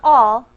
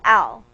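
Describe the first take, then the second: First: The vowel sounds like the one in 'ball'. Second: The vowel sounds like the one in 'pal'. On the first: The speaker calls it wrong. "Not all" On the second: The speaker calls it right. "but al"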